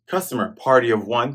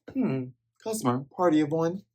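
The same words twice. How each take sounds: First: Said in the usual way. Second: Softer, hummed, sizing-up customer line; a hint of a gruff cook; mock Patty voice. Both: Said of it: "Patty asks".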